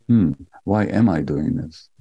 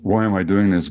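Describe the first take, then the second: First: It sounds gentle and curious. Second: It sounds harsh and self-judging.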